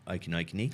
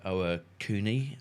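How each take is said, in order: First: The name comes out as a garbled, repeated-syllable guess. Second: The name is said with careful, clear syllables. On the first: The speaker calls it wrong. "all I could come out with Okinokini" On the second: The speaker calls it right. "for those of you out there"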